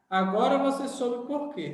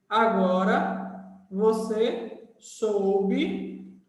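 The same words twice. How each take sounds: First: Said in the usual way. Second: Slow, drawn-out words read for writing; teacher spelling a sentence out slowly for copying; slow dictation. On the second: Shown as a demonstration. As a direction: dictate it slowly as you write on the board.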